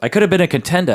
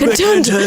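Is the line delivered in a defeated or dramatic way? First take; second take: defeated; dramatic. First: It is delivered quietly and defeated. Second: It is delivered big and dramatic.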